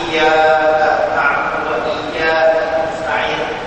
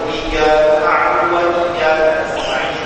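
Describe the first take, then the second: First: The opening sound is held before continuing. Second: The opening sound is read straight through, not held. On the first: "bacanya ditahan" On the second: "baca langsung"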